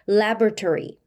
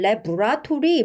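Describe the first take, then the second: First: It is said with native English sounds. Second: It is said with Korean-style syllables. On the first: The speaker calls it right. "이렇게 발음하는 것이 원어민의 발음입니다" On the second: The speaker calls it wrong. "우리가 레바토리 혹은 레브라토리 뭐 다양하게 발음을 하시는데요"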